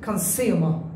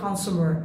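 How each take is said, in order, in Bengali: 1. এটি ব্রিটিশ উচ্চারণে বলা হয়েছে। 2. এটি আমেরিকান উচ্চারণে বলা হয়েছে। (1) "British বলছে consumer" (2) "American বলে consumer"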